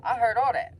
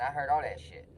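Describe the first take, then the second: First: High, loud blurt; excited admission. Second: Said in the usual way. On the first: Retold or imitated. Student telling the principal he overheard, excited. Eager confession of eavesdropping to principal.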